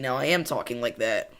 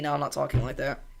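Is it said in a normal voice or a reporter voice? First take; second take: reporter voice; normal voice. First: It is said in a news reporter voice. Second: It is said in his normal voice.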